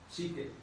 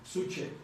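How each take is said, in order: First: The first vowel sounds like 'i'. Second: The first vowel sounds like 'u'. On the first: This is how the word is actually pronounced. The speaker calls it right. "Pero se pronuncia psique" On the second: This is how the spelling would be read. The speaker calls it wrong. "ustedes ¿cómo lo leerían?"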